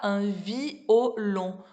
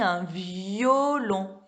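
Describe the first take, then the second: First: The 'i' and 'o' are said without a 'y' glide. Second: A clear 'y' glide joins the 'i' and 'o'. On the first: The speaker calls it wrong. "On dit pas" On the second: The speaker calls it right. "On dit un violon. Y"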